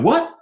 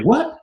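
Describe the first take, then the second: First: Very high, loud rising what; own challenging what. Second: High, loud rising what; sharp offended challenge; Mike's offended what. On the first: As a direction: snap back with a challenging what. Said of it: "And I was like". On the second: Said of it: "so Mike like". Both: Retold or imitated.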